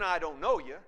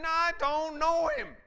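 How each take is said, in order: First: Said in the usual way. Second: High, loud, furious yell; screamed denial. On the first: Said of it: "not only saying". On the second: Acted. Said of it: "Screaming curses".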